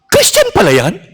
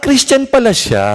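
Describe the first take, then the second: First: The speaker sounds doubtful and questioning. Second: The speaker sounds warm and accepting. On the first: The speaker calls it wrong. "Duda. Duda sa pagiging Kristiyano" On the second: The speaker calls it right. "Same words, but different intonation"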